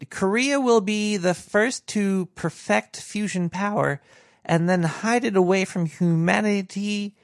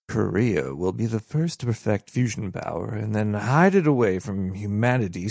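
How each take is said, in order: First: The pitch rises at the phrase ends. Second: The pitch stays flat and monotone throughout.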